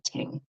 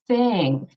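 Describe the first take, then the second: First: It begins with a t sound. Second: It begins with a voiceless th sound. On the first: The speaker calls it wrong. "they might pronounce it as a T sound" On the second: The speaker calls it right. "where your tongue should be between your teeth"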